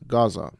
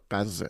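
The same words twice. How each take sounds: First: Gaza is said with an English pronunciation. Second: Gaza is said with a non-English pronunciation. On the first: The speaker calls it wrong. "it's not Gaza" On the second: The speaker calls it right. "it's uh, Gaza"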